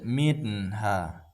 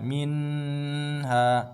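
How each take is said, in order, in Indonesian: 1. Huruf n diucapkan singkat tanpa dengung sengau. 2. Huruf n ditahan dengan dengung sengau yang panjang. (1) "sambil lalu saja" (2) "Tidak boleh kita bacanya"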